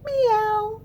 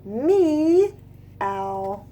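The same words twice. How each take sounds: First: High, short meow; cat meow. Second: Drawn-out soft meow; cat meow. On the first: Teacher doing the kids' turn with a high meow. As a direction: squeak it like a kitten. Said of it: "Your turn". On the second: Teacher showing the kids what the cats say, soft meow. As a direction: coax out a gentle cat sound. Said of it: "Do you?". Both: Acted.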